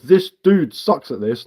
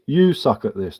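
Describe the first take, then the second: First: Slow, scornful read-back of the line; slow sneering quote; mocking quote. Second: Said in the usual way. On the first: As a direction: drawl out his words to mock them. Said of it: "what you writ is". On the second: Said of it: "what you meant to say is".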